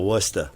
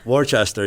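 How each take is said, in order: First: The name is pronounced the local Massachusetts way. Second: The name is pronounced closer to its spelling. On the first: The speaker calls it right. "You got to go to Worcester. ... it's a Massachusetts thing" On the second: The speaker calls it wrong. "you can't go to Worcester"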